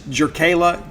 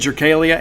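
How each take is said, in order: First: The name ends with a 'la' sound. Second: The name ends with a 'lia' sound. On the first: The speaker calls it right. "It's Jerkala Jordan" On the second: The speaker calls it wrong. "I've been mispronouncing"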